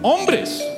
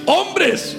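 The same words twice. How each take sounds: First: The word is said plainly, without extra force. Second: The word is said with strong, forceful emphasis.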